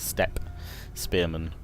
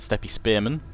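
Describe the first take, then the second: First: The final E of steppe is silent. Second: The final E of steppe is pronounced. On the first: The speaker calls it right. "presume it's probably a silent E" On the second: The speaker calls it wrong. "I probably shouldn't say the E at the end"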